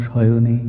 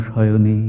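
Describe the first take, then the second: The two takes are said the same way.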